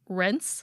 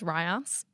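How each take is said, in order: First: The name sounds just like the word 'rinse'. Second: The name does not sound like 'rinse'. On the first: "I think I pronounced it was just rinse, like R I N S E" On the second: "Peter Kenny pronounces this Ryance"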